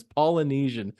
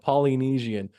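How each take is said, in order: First: "Polynesian" with a reduced second vowel, like "Polla-nesian"; correct pronunciation. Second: "Polynesian" with a clear "Polly" at the front; mimicked mispronunciation. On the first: Shown as a demonstration. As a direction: say "Polynesian" with an unstressed "uh" after "Pol". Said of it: "you say it wrong every time". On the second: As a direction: say "Polynesian" as "Polly-neezian", with a full "ee". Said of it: "you keep calling it".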